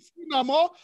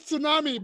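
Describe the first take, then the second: First: The word has a Nigerian pronunciation. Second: The word has the usual, familiar pronunciation. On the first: "when you get to Nigeria, it's called tsunami" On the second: "We know it as tsunami"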